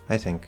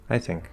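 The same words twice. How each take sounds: First: The stress falls on the word I. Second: The same.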